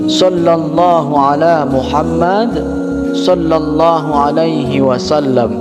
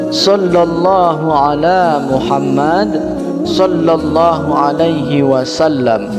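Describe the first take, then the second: No difference in how they are said.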